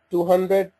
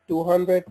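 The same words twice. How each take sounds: The two takes are said the same way.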